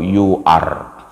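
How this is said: The final R sound is clearly pronounced. "orang Inggris yang bicara bahasa Inggris dari India baru you are"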